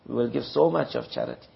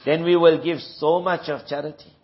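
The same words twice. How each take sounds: First: Lower, softer repeat; softer echo. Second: Said in the usual way. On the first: Shown as a demonstration. Preacher echoes the hollow promise in a softer voice. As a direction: let the promise fall away quietly.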